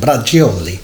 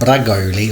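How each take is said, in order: First: The middle is said like 'gioli'. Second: The middle is said like 'goli'. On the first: The speaker calls it right. "that's how you actually pronounce that dish" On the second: The speaker calls it wrong. "not brag bragoli or whatever I was calling it"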